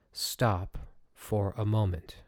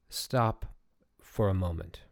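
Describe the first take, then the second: First: Slow, calm "Stop for a moment" with each word given weight; calm reminder. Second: Said in the usual way. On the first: Shown as a demonstration. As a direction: let "Stop for a moment" settle slowly and calmly. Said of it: "Just remember this. It's very, very powerful". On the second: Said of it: "write down somewhere on a small piece of paper".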